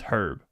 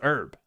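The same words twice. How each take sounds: First: The word begins with an audible H sound. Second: The word begins with a vowel, no H sound. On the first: It is used as a person's name. "most Americans only pronounce the H when herb is used as a name" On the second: It refers to a plant. "But if it's a plant, cooked or otherwise, it's herb"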